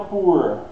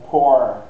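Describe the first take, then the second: First: "poor" with an "oo" vowel, like "poo-r"; U-sound version. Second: "poor" with an open "aw" vowel, like "pore"; open O version. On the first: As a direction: round the vowel of "poor" as in "boot". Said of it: "fica com som de U". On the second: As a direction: say "poor" to rhyme with "door". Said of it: "aqui não é poor". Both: Shown as a demonstration.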